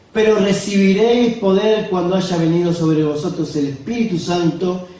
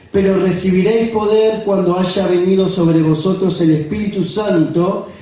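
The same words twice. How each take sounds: The two takes are said the same way.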